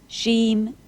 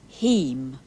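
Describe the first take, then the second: First: The name begins with a sh sound. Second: The name begins with an h sound. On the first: "the S in Sheem" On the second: "becomes H when I address him"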